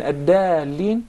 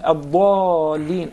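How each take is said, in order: First: AD-DALLIN with thin D, fronted "ae" vowel; light Dal. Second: AD-DALLIN with heavy D, drawn-out dark A; emphatic Dad. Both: Shown as a demonstration. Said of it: "tell me the difference between".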